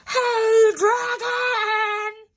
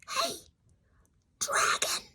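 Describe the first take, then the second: First: It is shouted very loudly. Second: It is whispered very softly.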